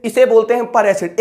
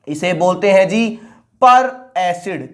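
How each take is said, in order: First: Said in the usual way. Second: Slow, drawn-out answer. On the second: Shown as a demonstration. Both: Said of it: "साफ साफ लिख देता हूं".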